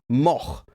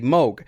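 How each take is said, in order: First: The name ends in a throaty rasping sound. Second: The name ends in a plain hard stop. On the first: This is the original Dutch way to say it. "that name is Dutch, and the way you say it is like a Klingon" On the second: This is how people in the US say it. "the U S uh, citizens have told me you should say Moog"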